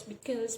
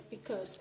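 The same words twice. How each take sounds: First: "because" said the standard way; standard pronunciation. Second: "because" as the interviewer says it; interviewer's pronunciation. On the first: Lecturer correcting an interviewer's word, standard pronunciation. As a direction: give "because" its textbook pronunciation. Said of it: "it is actually pronounced as". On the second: Lecturer quoting the interviewer's word, imitated pronunciation. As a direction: imitate a non-native "because". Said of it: "the interviewer speak as because". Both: Shown as a demonstration.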